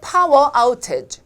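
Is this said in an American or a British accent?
British. It is spoken with a British accent. "영국"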